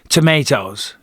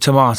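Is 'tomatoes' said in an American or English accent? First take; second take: American; English. First: It is said with an American pronunciation. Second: It is said with an English pronunciation. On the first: It fits in with the locals. "I'm intelligent enough to adapt to the surroundings that I'm in. I'll now say tomatoes" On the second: It marks the speaker as a foreigner. "instead of tomatoes"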